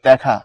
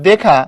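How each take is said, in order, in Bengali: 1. প্রথম স্বরধ্বনিটি একটি খোলা 'ae' ধ্বনি। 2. প্রথম স্বরধ্বনিটি একটি বদ্ধ 'e' ধ্বনি। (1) "পড়ার সময় তুমি এটাকে পড়ো হচ্ছে দেখা" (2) "লেখার সময় এরকম করে লেখো দেখা"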